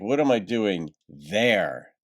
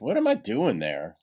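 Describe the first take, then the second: First: The word there is stressed. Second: The word there is not stressed.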